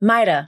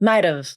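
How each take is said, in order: First: The word ends with a weak vowel. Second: The word ends with a v sound. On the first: "Or mighta" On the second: "This can be pronounced like might've"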